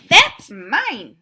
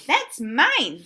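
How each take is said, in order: First: Loud, high indignant cry; cat's angry claim. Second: Loud, high squirrel squeak. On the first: Cat yells at Duck over the spoon, loud cry. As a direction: shout it as the possessive cat. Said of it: "Oh, no, hold on". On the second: Squirrel squeaks at Duck to claim the spoon, loud. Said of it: "squeaked the squirrel". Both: Acted.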